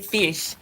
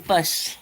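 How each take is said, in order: First: The vowel is the usual short 'ih' sound. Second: The vowel sounds like a short 'uh' sound. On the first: This is the general pronunciation. "in Charleston they don't say fish" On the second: This is how people in Charleston say it. "they say fush"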